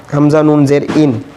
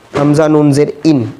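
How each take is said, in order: Both takes have the same delivery.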